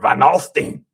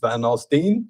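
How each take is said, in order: First: The last syllable rhymes with 'seen', said gruffly. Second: The last syllable rhymes with 'line'. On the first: "I say Steen because it's more German" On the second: "if it's Van Alstyne, Stein"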